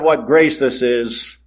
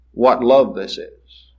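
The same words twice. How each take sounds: First: Said in the usual way. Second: "love" lingered on as the new word; slow, lean on "love"; stress on love. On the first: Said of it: "Instead of". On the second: Shown as a demonstration. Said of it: "change one word in that hymn".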